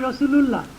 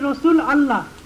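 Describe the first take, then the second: First: The two words are joined into one word. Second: The two words are said as separate words. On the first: "দুটো যখন একত্রিত করা হয় তখন হয় রসুলুল্লাহ" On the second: "পৃথক পৃথক করে বলেন তাহলে ওটা হবে রসুল আল্লাহ"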